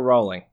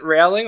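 First: "Rowling" said like the word rolling; alternative pronunciation. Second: "Rowling" said to rhyme with howling; alternative pronunciation. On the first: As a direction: say "Rowling" with a long "oh". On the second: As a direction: say "Rowling" with an "ow" as in cow. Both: Shown as a demonstration. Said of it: "is it Rowling or Rowling".

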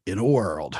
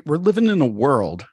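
First: Movie trailer voice. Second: Said in the usual way. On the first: Shown as a demonstration. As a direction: drop into the dramatic trailer guy. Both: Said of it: "Breaking into that old, uh, movie voice guy".

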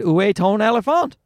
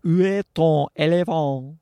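First: French attempted in an English accent, pitched up; French question with a heavy English-speaker accent; earnest amateur French accent; poor French accent. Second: Mock-perfect French accent. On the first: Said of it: "that was a perfect accent". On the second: Shown as a demonstration. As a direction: draw out the French vowels, hamming the accent. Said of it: "that was a perfect accent, guys".

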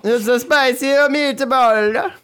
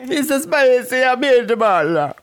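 First: Hammed-up Italian, high and slow; spicy meatball cliché, stretched out and high; mock Italian accent. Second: Hammed-up Italian again, high and drawn out; mock Italian accent. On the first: A podcaster lampooning the mobster's quote, hammed-up Italian. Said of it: "I thought you were gonna say spicy meatball". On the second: A podcaster showing off his Italian accent, mock Italian. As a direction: lean into the cartoon Italian accent. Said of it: "so my accent is spot on".

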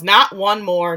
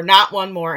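First: Loud retold shout; a loud, half-acted outburst from the story; retold yell. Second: Loud retold shout, falling at the end; a loud, half-acted outburst that ends falling; retold yell. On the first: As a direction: shout it as the shooter in the scene. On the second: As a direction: repeat the shout as she fires. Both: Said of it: "Grace Juno stands up and yells".

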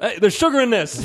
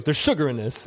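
First: Loud, high retold protest; mock outrage. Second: Raised-pitch retold complaint; mildly affronted. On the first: Southern friend objecting to the cornbread, loud mock outrage. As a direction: imitate an appalled diner calling it out. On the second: Friend tasting barbecue-place cornbread, mildly affronted imitation. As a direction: imitate a diner's first objection, held in check. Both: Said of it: "Like it was wrong".

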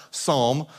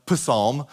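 First: "Psalm" said with a silent P, starting on S. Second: "Psalm" said as "puh-SAHM", with the P voiced out; sounded P. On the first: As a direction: say "Psalm" as "sahm", slowly. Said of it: "it's pronounced Psalm". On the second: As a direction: sound the P in "Psalm" as its own syllable. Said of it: "so it looks like". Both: Shown as a demonstration.

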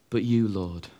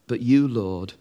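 First: "you" repeated softer and lower; "you" said low as an echo; quiet repeat. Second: "you" lifted and leaned on; "you" given weight, said slowly; stress on you. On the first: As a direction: let "but you, Lord" fall away quietly. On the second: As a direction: hit "you" in "But you, Lord". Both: Shown as a demonstration. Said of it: "the psalm changes because".

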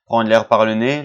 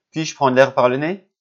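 First: "Prendre l'air par le nez" said as a plain statement; "le nez" falling, matter-of-fact; statement tune. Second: "Puis-je prendre l'air par le nez?" rising as a real question; "le nez" lifted, asking oneself; question tune. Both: Shown as a demonstration.

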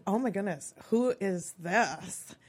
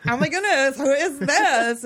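First: Lightly voiced Valley Girl, drawn-out "who is this"; Valley Girl awe at normal volume, slowing right down; eighties Valley Girl. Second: Put-on loud, high Valley Girl gush, dragging out "who is this"; hammed-up Valley Girl, pitched up and belted out; eighties Valley Girl. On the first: Teen spotting a boy in the yearbook, lightly Valley Girl. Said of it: "said it in my best eighties Valley Girl voice". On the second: Teen gushing over a yearbook photo, exaggerated Valley Girl. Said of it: "my best eighties Valley Girl voice".

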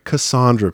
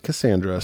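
First: Cassandra pronounced kuh-SAHN-druh; broad AH in the middle of Cassandra. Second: Cassandra pronounced kuh-SAN-druh; flat A as in "sand" in Cassandra; Cassandra with short A. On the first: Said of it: "she pronounced her name Cassandra". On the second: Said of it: "I pronounce it Cassandra". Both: Shown as a demonstration.

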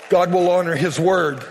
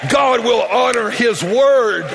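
First: Said in the usual way. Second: Slow, drawn-out proclamation; preaching shout. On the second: Real, not acted. Preacher promises the congregation a breakthrough, emphatic shout. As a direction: declare it with full-voiced conviction.

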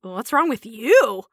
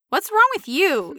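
First: Slow comeback with YOU stressed; haughty "what's wrong with YOU", drawn out; eyebrow-raised retort. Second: High, slow nosy demand, imitated; mock-prying high voice; rude questioner. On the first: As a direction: throw it back, leaning on YOU. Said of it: "with the eyebrow raised and go". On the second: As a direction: ask it intrusively, pitched up and drawn out. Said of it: "somebody comes up to you and says". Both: Shown as a demonstration.

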